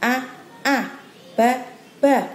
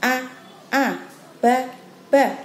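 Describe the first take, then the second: The two takes are said the same way.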